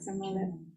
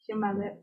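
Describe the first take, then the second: First: The word begins with an 's' sound. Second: The word begins with a 'ch' sound. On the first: This is a dialect pronunciation. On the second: This is the usual pronunciation.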